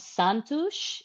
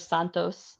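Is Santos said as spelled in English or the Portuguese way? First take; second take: Portuguese; as spelled. First: It is said with a local Portuguese pronunciation. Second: It is said the way it is spelled.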